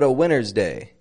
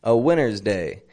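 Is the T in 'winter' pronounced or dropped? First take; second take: dropped; dropped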